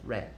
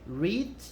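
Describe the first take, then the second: First: The vowel is short, as in 'bed'. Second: The vowel is long, as in 'need'. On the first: It is the past participle. "o participo passado ou particípio é read" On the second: It is the present tense. "O presente é read"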